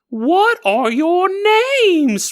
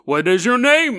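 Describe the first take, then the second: First: It is said in a high-pitched voice. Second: It is said in a deep cartoon bear voice.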